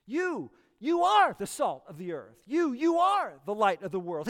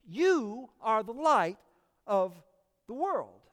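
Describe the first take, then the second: First: "You, you are" doubled, with weight on "are" and the doubled "You"; emphatic repetition. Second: "You are the light of the world" read slowly, evenly, without extra punch on "You"; slow quoted verse. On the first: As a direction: declare the "You, you" as an identity, with stress. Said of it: "It's emphatic". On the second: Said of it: "Jesus puts it this way". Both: Retold or imitated.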